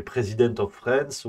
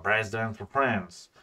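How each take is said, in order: First: Said in the usual way. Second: Slow, put-on American English accent. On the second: Shown as a demonstration. Streamer redoing a dossier title in English, American accent. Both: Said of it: "j'ai oublié mon accent américain".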